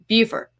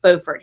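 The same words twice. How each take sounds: First: It is said the South Carolina way. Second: It is said the North Carolina way. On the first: This is how people in South Carolina say it. "In South Carolina, it's pronounced Beaufort" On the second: This is how locals in North Carolina say it. "it's pronounced Beaufort here"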